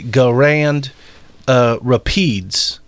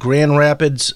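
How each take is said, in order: First: Grand is stretched into two syllables. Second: Grand is said as one syllable. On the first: The speaker calls it wrong. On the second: The speaker calls it right.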